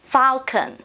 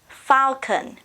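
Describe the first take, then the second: First: American accent, first vowel an 'ah' sound. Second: The same.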